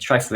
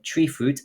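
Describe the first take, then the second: First: The first syllable sounds like 'try'. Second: The first syllable sounds like 'tree'. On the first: "some of us are saying tri-fruit" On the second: "some of you are saying tree fruit"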